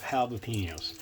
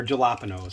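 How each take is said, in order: First: Jalapenos with an H sound at the start; Spanish-style pronunciation. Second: Jalapenos with a J sound at the start; anglicised mispronunciation. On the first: Host naming the peppers for viewers, Spanish-style pronunciation. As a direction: say jalapenos as hah-la-PEEN-yos. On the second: Host offering viewers another way to say it, anglicised pronunciation. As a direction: say jalapenos as juh-LAP-uh-nos, as spelt. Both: Shown as a demonstration. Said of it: "however you wanna say it".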